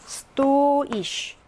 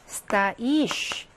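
First: Стоишь as STO-ish, long О; Стоишь with a drawn-out, stressed first syllable. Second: Стоишь as sta-ISH, long И; стоишь with the weight on the last syllable; stress on the ending. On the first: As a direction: hold and punch the О in Стоишь. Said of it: "강세가 다릅니다". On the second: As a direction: reduce О to A and stretch И in стоишь. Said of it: "서 있다는 강세가 어미에 있어요". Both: Shown as a demonstration.

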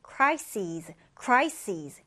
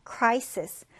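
First: "crises" ending in a long -seez; final z sound. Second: CRIsis, first syllable of "crisis" stressed; singular "crisis", first syllable stressed, ending in s. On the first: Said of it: "끝에를 z 발음 해주시면 돼요". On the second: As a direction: say "crisis" with weight on cri-, short -sis ending. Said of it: "첫 음절에 강세 두고". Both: Shown as a demonstration.

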